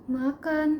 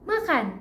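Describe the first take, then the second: First: It sounds low in pitch and trembling. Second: It sounds cheerful, with a higher pitch. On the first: The speaker is feeling sorrowful. "kalau sedih itu biasanya nadanya lebih rendah dan terdengar be- bergetar" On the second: The speaker is feeling glad. "kalau misalkan lagi senang itu biasanya nadanya lebih riang dan lebih tinggi"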